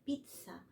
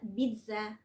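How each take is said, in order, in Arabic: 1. الحرف الأوسط هو صوت ts. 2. الحرف الأوسط هو صوت z عادي. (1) "كأن في الزين دي كأنها تي اس" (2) "الكلام ده غلط"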